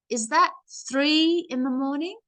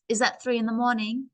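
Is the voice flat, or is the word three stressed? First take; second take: three; flat. First: The voice lifts and stresses the word three. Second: The voice stays level with no word stressed. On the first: The speaker calls it right. "So you could see I push my voice with the number" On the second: The speaker calls it wrong. "My voice is not going to stay the same"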